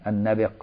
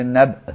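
First: النبق as "an-nabiq", with i after the b; classical pronunciation. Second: النبق as colloquial "nab'", no vowel after the b; Egyptian pronunciation. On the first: Teacher shows students the classical form, النبق with kasra on b. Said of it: "الفصيح بكسر الباء". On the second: Teacher shows students Egyptian usage, النبق with a vowelless b. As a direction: say النبق the Egyptian way, glottal stop for the q. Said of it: "المصريين كده بسكون الباء". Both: Shown as a demonstration.

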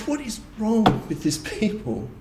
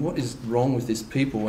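First: "What is wrong with this people?" thrown up high, mock-indignant; scoffing at Israel, higher voice; exasperated scoff. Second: Proud inner thought. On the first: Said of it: "and we're like". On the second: Retold or imitated. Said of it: "in our pride, thinking".

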